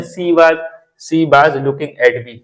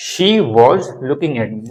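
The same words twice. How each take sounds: First: Slow "she was" as see baaz; local mispronunciation. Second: "she" with sh, "was" as wawz; preferred pronunciation. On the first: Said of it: "कुछ लोग she भी बोलते हैं". ("she was" को सी बाज़) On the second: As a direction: say "she was" with clear sh and rounded aw. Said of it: "बोल तो अच्छा लगता है". ("she" में श, "was" में वॉ) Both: Shown as a demonstration.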